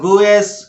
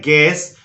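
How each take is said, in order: First: The u is sounded after the g. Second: The u is silent after the g. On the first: The speaker calls it wrong. "गलती से आप इसको गिवएस या गुएस इस तरह की बातें ना बोलें" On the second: The speaker calls it right. "यहां पर यू को साइलेंट करके बोलिए"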